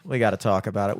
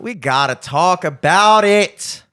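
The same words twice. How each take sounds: First: Said in the usual way. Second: Loud, slow, drawn-out declaration; mock-dramatic outburst. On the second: Host launching the traffic topic, loud mock-dramatic insistence. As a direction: belt it out, stretching every word.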